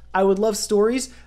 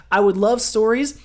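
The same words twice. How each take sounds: The two takes are said the same way.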